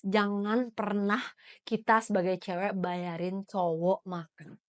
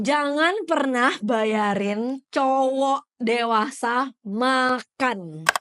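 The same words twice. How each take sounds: First: Slow, softer and deliberate; measured restatement. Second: Very slow, word by word; emphatic announcement. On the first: Host clarifying the rule for women listeners, measured. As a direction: spell the rule out slowly, toned down. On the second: Host announcing rule three to listeners, slow and emphatic. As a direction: proclaim the rule, stretching each word. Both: Real, not acted.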